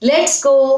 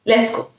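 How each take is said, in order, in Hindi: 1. यह खुशी भरे लहजे में बोला गया है। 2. यह बिना किसी भाव के, सपाट ढंग से बोला गया है। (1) "प्यार से बोलना है कि चलो खुशी से" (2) "कोई एक्सप्रेशन नहीं है"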